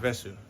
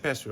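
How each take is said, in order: First: The word begins with a v sound. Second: The word begins with a p sound. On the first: This is the standard form of the word. "instead of vesu" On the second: This is the slang form heard among Indo-Fijian speakers. "a lot of them they say pesu"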